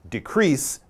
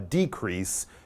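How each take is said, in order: First: The stress is on the second syllable. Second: The stress is on the first syllable. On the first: It is used as a verb. "that's the verb, it's on the end" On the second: It is used as a noun. "you would put the stress on the beginning of the word"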